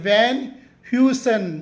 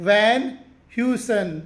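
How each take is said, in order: No difference in how they are said.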